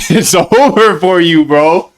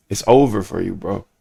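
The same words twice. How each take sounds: First: Raised, slow, drawn-out mock threat; emphatic mock warning. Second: Low, soft mock threat; deadpan mock warning. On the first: Streamer warning fans who greet him in public, escalated mock threat. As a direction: stretch it out high with playful menace. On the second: Streamer warning fans who greet him in public, deadpan mock threat. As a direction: drop it quietly, trailing lower on bro.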